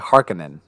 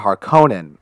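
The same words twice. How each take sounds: First: The middle 'ko' is said soft and light. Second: The middle 'ko' is said hard and strong. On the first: The name sounds less menacing. The speaker calls it wrong. "it doesn't sound as badass" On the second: The name sounds more menacing. The speaker calls it right. "sounds more menacing with the hard K-O"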